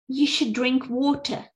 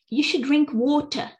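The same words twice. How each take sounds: First: It is said in a British accent. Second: It is said in a British accent.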